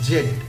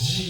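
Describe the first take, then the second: First: The letter is said as zed, British style. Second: The letter is said as zee, American style. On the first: "British English অনুযায়ী" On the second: "American English অনুযায়ী"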